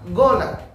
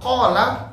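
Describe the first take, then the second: First: The word starts with a hard 'g' sound. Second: The word starts with a deep throat 'q' sound. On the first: "Kalau orang-orang Yaman" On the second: "kalau qala gola"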